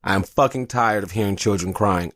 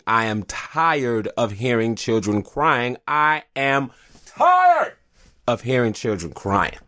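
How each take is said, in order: First: Said in the usual way. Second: Slow, drawn-out exasperation building on "tired"; aggravated. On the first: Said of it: "I am, uh, very aggy, aggravated". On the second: Real, not acted. Dad fed up with crying children, slow aggravated emphasis. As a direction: stretch every word, fed up, punching "tired". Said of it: "I am, uh, very aggy, aggravated, pissed off".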